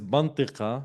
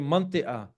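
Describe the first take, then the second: First: The middle consonant is a deep q sound. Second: The middle consonant is a glottal stop. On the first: "the letter that you are marking now is the Qaf" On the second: "Some of them say manti'a"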